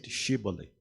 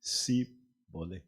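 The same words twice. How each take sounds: First: "Shibboleth" starting on a hushed SH. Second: "Sibole" broken slowly, starting SEE; Shibboleth with S. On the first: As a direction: say "Shibboleth" with an opening sh sound. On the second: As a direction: say "Sibole" with an opening s, no h. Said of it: "Others will pronounce it". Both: Shown as a demonstration.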